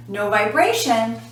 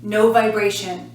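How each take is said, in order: Both takes have the same delivery.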